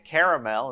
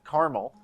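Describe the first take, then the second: First: It is said the non-Midwestern way. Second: It is said the Midwestern way.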